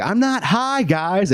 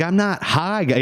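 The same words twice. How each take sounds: First: Very high, squeaky protest of innocence; cartoonishly high defensive denial; stoned denial. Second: High-pitched protest of innocence; squeaky defensive denial; stoned denial. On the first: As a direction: play the obviously stoned kid insisting he's fine. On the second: Retold or imitated. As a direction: insist you're not high while clearly high. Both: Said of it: "imagine being sixteen and telling".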